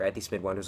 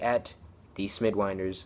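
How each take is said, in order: First: It is said at normal speed. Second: It is said slowly.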